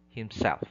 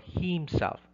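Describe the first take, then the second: First: The stress is on the second syllable. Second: The stress is on the first syllable. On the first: The speaker calls it right. "It should be myself, himself" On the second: The speaker calls it wrong. "It's not myself or himself. No, that's wrong"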